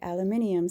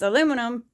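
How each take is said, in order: First: It is said with five syllables, British style. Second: It is said with four syllables, American style. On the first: "the Brits say aluminium" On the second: "it's aluminum"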